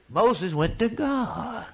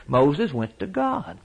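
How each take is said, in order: First: Slower still and pitched higher, leaning hard on God; emphatic repeat. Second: Slow, weighted words; measured statement. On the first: Preacher repeating the point to the congregation, slower and higher. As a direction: drive the point home. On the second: Preacher telling the congregation where Moses turned, slow and weighted. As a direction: set each word down deliberately. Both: Shown as a demonstration. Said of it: "Moses didn't go to the snake tamers".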